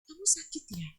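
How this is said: It is said in a gentle, soft tone.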